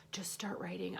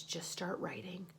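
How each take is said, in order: First: Whisper. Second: Said in the usual way. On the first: Real, not acted. To herself, urging herself to write, whispered. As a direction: repeat it in a soft unvoiced whisper.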